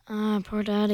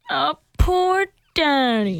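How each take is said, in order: First: It sounds flat and insincere. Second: It sounds sincere and sympathetic.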